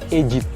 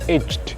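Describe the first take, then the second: First: The ending adds an extra id syllable. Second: The ending is a plain d, one syllable. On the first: The speaker calls it right. "tapi tetap aged" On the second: The speaker calls it wrong. "Seharusnya aged, bukan begitu ya"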